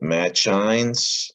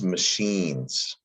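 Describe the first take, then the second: First: The middle consonant is a ch sound. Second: The middle consonant is an sh sound. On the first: The speaker calls it wrong. "So is it machines? No" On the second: The speaker calls it right. "the C H makes an S H sound"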